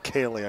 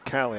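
First: The first vowel sounds like the one in day. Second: The first vowel sounds like the one in cat. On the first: The speaker calls it right. "I believe it's Kaylee" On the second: The speaker calls it wrong. "I've been pronouncing it Callie"

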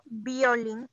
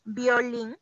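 No difference in how they are said.

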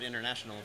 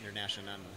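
First: It is said with standard English pronunciation. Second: It is said with a Thai-style pronunciation. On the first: A listener recognizes the word. The speaker calls it right. "I know the word international" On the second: A listener thinks it is a new word. The speaker calls it wrong. "but I don't know the word international"

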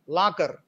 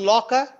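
First: The first vowel is unrounded and strong. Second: The first vowel is rounded and the ending weak. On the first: The speaker calls it wrong. "in the Telugu way of speaking or pronouncing this word is lakar" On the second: The speaker calls it right. "law, or rounded. And the final R is weak"

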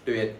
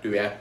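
First: The word is said lightly. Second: The word is stressed very heavily. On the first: The speaker calls it right. "Tuyệt nhẹ thôi" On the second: The speaker calls it wrong. "bị nhấn âm nặng quá là tuyệt nha"

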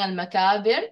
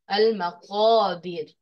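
First: The consonant is a light k sound. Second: The consonant is a heavy, deep q sound. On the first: The speaker calls it wrong. "We shouldn't be saying al-makabir" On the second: The speaker calls it right. "Qaf is heavy"

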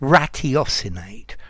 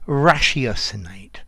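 First: The first syllable has a t sound. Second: The first syllable has an sh sound. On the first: "you will hear many people say ratiocinate" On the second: "I say ratiocinate, rash"

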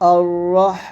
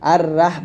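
First: The vowel after the R is rounded. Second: The vowel after the R is open. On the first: The speaker calls it right. "আবার আর রহ আর রহ আর রহ" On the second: The speaker calls it wrong. "এরকম আর রাহ বলবেন না"

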